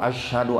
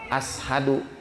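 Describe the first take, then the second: First: The first consonant is an sh sound. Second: The first consonant is a plain s sound. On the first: The speaker calls it right. "shin bukan sin" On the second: The speaker calls it wrong. "kurang shin, kurang lekoh"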